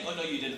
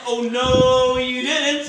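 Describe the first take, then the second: First: It is said at a normal pace. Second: It is said slowly, drawn out.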